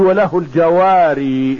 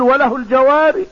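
First: The last word ends with a long 'ee' sound. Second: The last word ends without the final 'ee' sound. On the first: "وبعض العلماء يثبت الياء في الوقف فيقول" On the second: "ولكن اكثر القراء اذا قرأوا في الوقف يقول"

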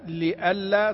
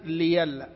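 First: The middle consonant is a glottal stop. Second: The middle consonant is a y sound. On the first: "بإبدال الهمزة ياء لألا تصير ليلا" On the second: "بإبدال الهمزة ياء لألا تصير ليلا"

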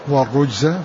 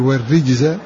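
First: The r takes a u vowel and sounds heavy. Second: The r takes an i vowel and sounds light. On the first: "بضم كسر الراء" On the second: "وباقي القراء قرأوا بالكسر"

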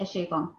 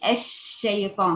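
First: The sh sound is short without airy spread. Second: The sh sound has a strong airy spread. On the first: The speaker calls it wrong. "فين صفة التفشي؟ ما عملتيهاش" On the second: The speaker calls it right. "ما تقوليش الشيطان"

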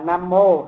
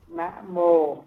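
First: The first syllable ends with an m sound. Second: The first syllable ends without an m sound. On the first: The speaker calls it wrong. "chứ không phải là nam mô" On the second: The speaker calls it right. "Như vậy mới đúng nè"

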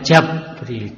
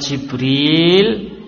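First: The first vowel is an a sound. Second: The first vowel is an i sound. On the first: "bisa difathah" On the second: "Jimnya bisa dikasroh"

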